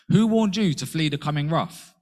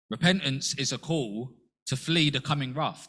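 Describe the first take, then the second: First: The Baptist's rebuke, much louder and higher; stern prophet. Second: Said in the usual way. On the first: Retold or imitated. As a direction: thunder it at the Pharisees. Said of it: "he says to the Pharisees". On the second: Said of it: "John the Baptist called it".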